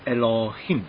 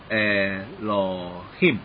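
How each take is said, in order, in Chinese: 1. 第一个元音非常短。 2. 第一个元音读得更长。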